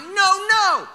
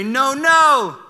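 First: Sharp, much higher, louder no no; alarmed dad yell. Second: Firm, louder and higher warning no; the dad voice. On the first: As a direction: catch him as he stands, alarmed. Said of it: "I'm like". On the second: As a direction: stop the toddler cold with a stern dad warning. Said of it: "I hit him with the dad voice". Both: Retold or imitated.

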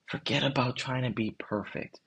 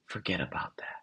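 First: Said in the usual way. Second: Hushed, breathy secret to the listener; whisper. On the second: Real, not acted. Host urging the listener to drop perfectionism, in a whisper. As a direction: lean in and whisper it like a confidant.

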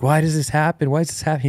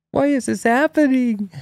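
First: Put-on high, bewildered little-boy questions; a hint of a confused toddler; lightly voiced worried child. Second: Put-on very high, piping little-boy question; cute plaintive child. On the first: And then he's like. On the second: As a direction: squeak it like a small bewildered kid. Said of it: "He's so cute".

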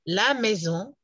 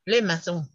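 First: "la maison" said slowly with a French "la"; careful French "la maison". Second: "le maison" with a French "le"; contrasting French "le maison". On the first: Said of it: "Una cosa es". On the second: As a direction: say "le maison" with the vowel of "le". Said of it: "otra cosa es". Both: Shown as a demonstration.

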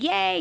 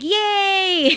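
First: High cheer at an everyday volume; lighter, high-pitched re-enacted cheer; cheering along. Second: High, loud, drawn-out cheer; cheering along. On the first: Showing how they cheered for the stranger, excited. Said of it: "I was just like". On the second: Retold or imitated. Cheering for a stranger's good news, excited. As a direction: whoop for her, pitched way up. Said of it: "I said it like that".

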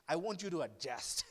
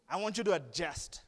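First: Said in the usual way. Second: Laughing through the words; laughing repeat. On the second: Shown as a demonstration. Preacher laughing at his own line to the congregation. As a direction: laugh it out playfully.

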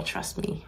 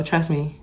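First: Whispered. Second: Said in the usual way. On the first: Acted. Closing advice, repeated as a hush.

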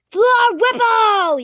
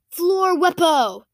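First: Loud, high, drawn-out incantation; yelled spell. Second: Raised, slow pronouncement; name the spell slowly and firmly; spell announcement. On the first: A narrator's reading. Boy casts the disarming spell, drawn-out high yell. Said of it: "yelled Soren". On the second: Acted. Boy shows friends a new spell, slow raised announcement.

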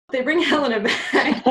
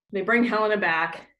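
First: Laughing through it, higher; "They bring Helena back" through giggles. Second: Said in the usual way. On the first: Real, not acted. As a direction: say it while cracking up. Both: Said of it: "God, this play is complicated".

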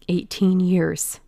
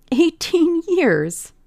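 First: Said in the usual way. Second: Much higher, slow, laughing with triumph; triumphant laugh. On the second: Acted. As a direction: savour the words, laughing in relief. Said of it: "laughed Dorian Gray with a touch of triumph".

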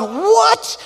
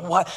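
First: High, loud alarmed yelp of disbelief; a sudden startled shout, voice jumping way up; shocked shout. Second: Said in the usual way. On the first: Retold or imitated. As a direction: blurt it out like a panicked new parent. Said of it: "And I'm going". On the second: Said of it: "I'm going like".

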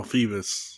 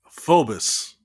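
First: "Phoebus" with the O silent, FEE-bus. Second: "Phobos" with a long O in the first syllable; O pronounced. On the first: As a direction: say "Phoebus" with a long EE first. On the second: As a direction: say "Phobos" as FOH-bus, O sounded. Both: Real, not acted. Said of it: "the O is not pronounced".

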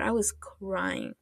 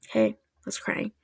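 First: Said in the usual way. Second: Hushed, voiceless confession; whispered admission. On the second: Real, not acted. Admitting to listeners she cried at the show, whispered.

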